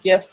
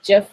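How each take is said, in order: First: The word begins with a hard G sound. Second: The word begins with a J sound.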